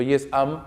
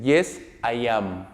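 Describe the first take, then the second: First: "Yes, am" with "am" cut down to a contracted I'm; left hanging. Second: "Yes, I am" said slowly with "I am" uncontracted; full form. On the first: Teacher showing students the wrong short answer, "am" contracted and left hanging. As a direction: squeeze "am" into a contraction, leaving the answer dangling. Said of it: "la idea me queda un poco colgada". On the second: Teacher modelling the short answer for fluency, "I am" slow and full. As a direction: give "I am" as two full, drawn-out words. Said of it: "Por una cuestión de fluidez y entonación".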